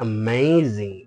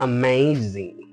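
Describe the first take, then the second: The two takes are said the same way.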